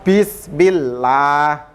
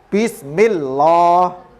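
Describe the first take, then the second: First: The L in Allah sounds light and thin. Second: The L in Allah sounds heavy and thick. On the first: The speaker calls it right. "maka lafaz Allah dibaca la" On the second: The speaker calls it wrong. "tidak boleh dibaca bismillah"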